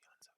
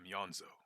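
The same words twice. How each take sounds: First: The name is said in a whisper. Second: The name is said in a normal voice.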